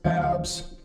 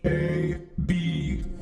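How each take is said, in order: First: It is said as a single word. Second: Each letter name is said separately. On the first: The speaker calls it wrong. "would not be read like abs" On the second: The speaker calls it right. "but rather like A B"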